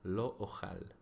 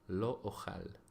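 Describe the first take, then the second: First: It is said with modern Hebrew pronunciation. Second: It is said with modern Hebrew pronunciation.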